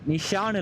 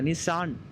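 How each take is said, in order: First: The middle consonant is an 'sh' sound. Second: The middle consonant is an 's' sound. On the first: The speaker calls it wrong. "நிஷான் இல்ல" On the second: The speaker calls it right. "சாணி சொல்றோம்ல சாணி. அதான் நிசான்"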